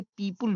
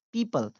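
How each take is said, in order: First: "पीपल" said as PEE-pool, u in the second syllable; common alternative pronunciation. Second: "पीपल" as PEE-puhl, neutral second vowel; correct pronunciation demo. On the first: Teacher shows how many people read people, alternative pronunciation. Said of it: "बहुत सारे लोग इसे पीपल भी पढ़ते हैं". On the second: Teacher gives the right pronunciation of people, correct pronunciation. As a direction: say "पीपल" with a short uh before l. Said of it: "सही pronunciation है". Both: Shown as a demonstration.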